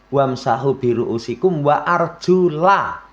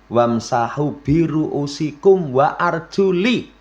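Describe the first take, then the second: First: The last word ends with an 'a' vowel. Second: The last word ends with an 'i' vowel. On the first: The feet are to be washed. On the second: The feet are to be wiped. "Kalau orang syiah, itu membaca ayat"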